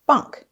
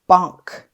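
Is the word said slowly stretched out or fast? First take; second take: fast; stretched. First: The word is said quickly as one unit. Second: The word is stretched out slowly, sound by sound. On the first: "Say it fast" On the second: "Tap and stretch it again"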